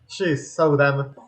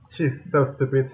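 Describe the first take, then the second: First: "so" drawn out, very slow; slow mocking "so dumb"; stress on so. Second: "so" stretched out slow; drawn-out "so", slow; stress on so. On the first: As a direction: really drag out "so" in She's so dumb. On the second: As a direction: lean on "so" in She's so stupid. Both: Shown as a demonstration.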